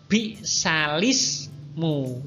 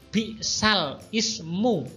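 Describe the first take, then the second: First: The l runs straight into ismu, no stop. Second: A glottal stop separates the two words. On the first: The hamzah's vowel is moved to the lam and the hamzah dropped. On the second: The written form as it stands. "yang semula bunyinya"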